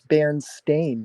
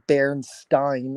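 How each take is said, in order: First: The name ends with a 'stain' sound. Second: The name ends with a 'stine' sound. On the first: The speaker calls it right. "It's Berenstain" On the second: The speaker calls it wrong. "It was never supposed to be Bernstein"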